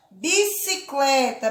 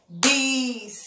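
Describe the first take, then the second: First: Said in the usual way. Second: "bicicleta" in four spaced beats, bi - ci - cle - ta; split into syllables. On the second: Shown as a demonstration. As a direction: pause after each syllable of "bicicleta". ("bicicleta" sílaba por sílaba: bi - ci - cle - ta) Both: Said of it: "Bati a mão quatro vezes".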